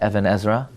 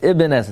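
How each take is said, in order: First: The first word sounds like 'ev-an', two syllables. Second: The first word sounds like 'ib-n', one syllable. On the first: The speaker calls it wrong. "Please don't say the Evan Ezra" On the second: The speaker calls it right. "it's Ibn Ezra"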